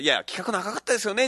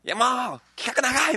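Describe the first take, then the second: First: It is said in a plain, adult way. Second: It is said in a whiny, childish way.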